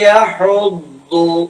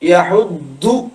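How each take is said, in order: First: The middle consonant sounds heavy, between 'd' and 'l'. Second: The middle consonant sounds like a plain 'd'. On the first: The speaker calls it right. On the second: The speaker calls it wrong.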